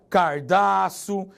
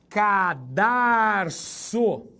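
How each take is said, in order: First: The R sound is in the first syllable. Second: The R sound is in the second syllable. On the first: The speaker calls it wrong. "Brasileiro fala" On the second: The speaker calls it right. "Cuidado com a pronúncia"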